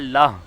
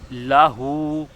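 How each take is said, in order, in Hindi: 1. शब्द का अंत बिना स्वर के मौन h पर होता है। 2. शब्द का अंत h के बाद पूरे स्वर से होता है।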